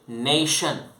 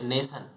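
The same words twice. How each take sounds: First: The middle consonant is an sh sound. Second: The middle consonant is an s sound. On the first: The speaker calls it right. "we say nation" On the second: The speaker calls it wrong. "We don't say nation"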